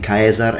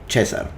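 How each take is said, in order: First: It uses the classical Latin pronunciation. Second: It uses the ecclesiastical Latin pronunciation. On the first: "those would be the actual classical pronunciation" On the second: "Caesar, sorry"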